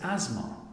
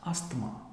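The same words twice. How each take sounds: First: The middle 'th' sound is left silent. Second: The middle 'th' sound is pronounced. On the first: The speaker calls it right. "the correct pronunciation of this word is asthma" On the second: The speaker calls it wrong. "This might be mispronounced as asthma"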